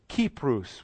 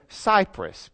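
First: The name begins with a hard k sound. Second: The name begins with a soft s sound. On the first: This is how it was said in ancient times. "would be the way they would have pronounced it back then" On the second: This is how it is said today. "because we have different ways of pronouncing those letters"

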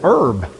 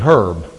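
First: The word begins with no H sound. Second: The word begins with a clear H sound. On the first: It is a garden plant. "But if you're picking them out of the garden, some people, it's herb" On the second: It is a person's name. "If you meet them on the street, it's probably herb"

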